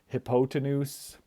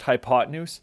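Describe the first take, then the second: First: The word begins sounding like 'hippo'. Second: The word does not begin sounding like 'hippo'. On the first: The speaker calls it wrong. "it kind of looks like hippo" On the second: The speaker calls it right. "but it is pronounced hypotenuse"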